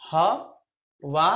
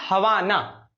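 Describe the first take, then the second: First: हवाना drawn out very slowly; slowly stretched. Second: Said in the usual way. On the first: Shown as a demonstration. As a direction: linger on हवाना. (हवाना को बहुत धीरे खींचकर) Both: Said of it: "drilling the word".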